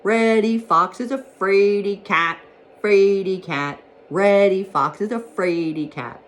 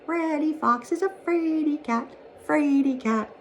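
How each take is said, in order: First: Loud, slow singsong jeer; raised, ringing call after someone running off; crying out a taunt. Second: Very high, small singsong voice; high piping tease, lighter than a full shout; little breezes' shouted taunt. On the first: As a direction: chant it like a playground tease. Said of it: "he cried out after Reddy Fox". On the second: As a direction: chant it in a tiny, teasing treble. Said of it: "playing on the Green Meadows shouted". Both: A narrator's reading.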